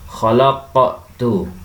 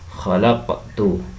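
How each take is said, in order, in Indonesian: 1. Bunyi q memantul terlalu kuat. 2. Bunyi q memantul ringan, tidak terlalu kuat. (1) "Tidak boleh kita membaca dengan uh" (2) "dengan memantulkan, tidak terlalu kuat"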